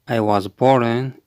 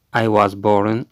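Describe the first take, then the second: No difference in how they are said.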